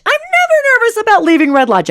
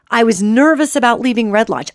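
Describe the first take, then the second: First: "never" hit much higher and louder; stress on never. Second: Said in the usual way. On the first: Shown as a demonstration. Retelling a trip home, punching "never" up high. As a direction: lift "never" high above the rest of the line.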